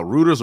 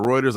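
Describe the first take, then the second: First: Reuters said as "ROO-ters"; unsure pronunciation. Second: Reuters said as "ROY-ters"; alternative pronunciation. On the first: Host unsure of the news agency's name, Reuters as "ROO-ters". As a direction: say Reuters with an "oo" in the first syllable. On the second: Host offering another way to say it, Reuters as "ROY-ters". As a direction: say Reuters with an "oy" in the first syllable. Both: Shown as a demonstration. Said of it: "I don't know how to pronounce it".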